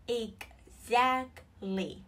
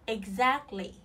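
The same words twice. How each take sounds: First: "Exactly" very slowly, split ex-act-ly with gaps; syllable by syllable. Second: Said in the usual way. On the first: Shown as a demonstration. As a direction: break "Exactly" into three separate beats. Teacher breaks word into syllables. (đọc chậm "Exactly", tách từng âm tiết)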